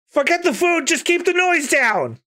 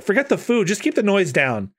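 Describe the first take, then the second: First: High, squealing critter voice; squeaky Chopper voice. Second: Nami voice. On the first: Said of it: "no, it's Nami saying that". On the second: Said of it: "it's Nami saying that". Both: Acted.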